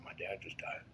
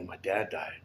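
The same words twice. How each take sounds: First: Repeats it in a hushed whisper; half-voiced whisper so only she hears. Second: Said in the usual way. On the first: To the girl beside him at the funeral, whispered.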